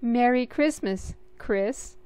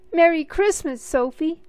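First: Relieved greeting. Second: Much higher, much louder joyful bellow. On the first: Sophie answering her brother, relieved and gentle. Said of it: "Sophie said with great relief". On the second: Little brother bellowing Christmas greetings at Sophie. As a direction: boom out the greeting. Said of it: "he bellowed". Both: A narrator's reading.

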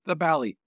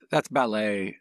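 First: "ballet" said like "bally"; Irish-film pronunciation. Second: Said in the usual way. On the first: Shown as a demonstration. Co-host repeating himself, "ballet" as "bally". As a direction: say "ballet" to rhyme with "tally", loud and high. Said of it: "they said the ballet". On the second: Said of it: "That's ballet in our terms".

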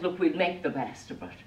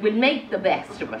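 First: Said in the usual way. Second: Brisk, higher, upbeat resolve; very positive. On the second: Acted. Swan daughter rallies the others, briskly positive. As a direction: chirp it quickly, looking on the bright side. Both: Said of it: "'cause she was very positive".

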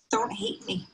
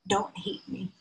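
First: Breathy, broken whisper of a retold plea; a son's second plea to his mother, whispered. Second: Softer, higher, pleading through tears; a son pleading with his mother, softer; tearful plea. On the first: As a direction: whisper it again, as if the voice gives out from crying. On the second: Retold or imitated. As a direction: beg your mother not to hate you. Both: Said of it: "what he uttered through his tears".

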